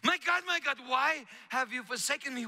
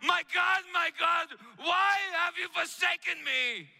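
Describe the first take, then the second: First: Said in the usual way. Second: Shouted high, anguished plea to God; anguished cry. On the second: A narrator's reading. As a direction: cry out in despair. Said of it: "and he cried".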